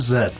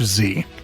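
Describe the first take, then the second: First: The letter is said the British way, 'zed'. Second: The letter is said the American way, 'zee'.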